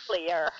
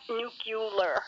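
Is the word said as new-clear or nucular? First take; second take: new-clear; nucular. First: It is said as new-clear, ending like clear. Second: It is said as nu-cu-lar, syllables rearranged. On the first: The speaker calls it right. "It is nuclear" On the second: The speaker calls it wrong. "It is not nuclear"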